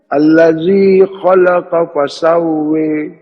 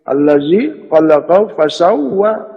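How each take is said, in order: First: The last word ends with an i sound. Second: The last word ends with an a sound.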